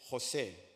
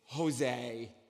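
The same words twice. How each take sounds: First: The name is said with a Spanish pronunciation. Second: The name is said with an English pronunciation. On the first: This is how the name is said in Spanish. "My name in Spanish is" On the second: This is how coworkers say the name. "when you pronounce it at work"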